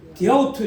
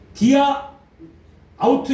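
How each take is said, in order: First: The two words run together without a pause. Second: The two words are separated by a pause. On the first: "이렇게 한꺼번에 읽어요" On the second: "디아, 아우투 이렇게 안 읽고"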